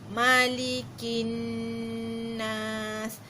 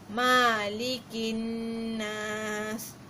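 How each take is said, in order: First: The first vowel is kept short. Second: The first vowel is drawn out long. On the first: The speaker calls it right. "Ma tu pendek sahaja" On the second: The speaker calls it wrong. "Ma, orang panjangkan. Malikin nas. Salah ya"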